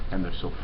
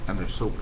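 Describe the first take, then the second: No difference in how they are said.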